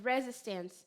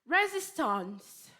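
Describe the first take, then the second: First: It is said plainly without the marked accent. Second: It is said in a strong, marked accent.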